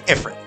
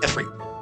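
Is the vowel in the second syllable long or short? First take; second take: short; long. First: The second syllable has a short vowel. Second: The second syllable has a long E vowel. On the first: It is read the way the word looks. The speaker calls it wrong. "that was how English-speaking audiences pronounced that" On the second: It follows the Arabic original. The speaker calls it right. "is with the long E sound"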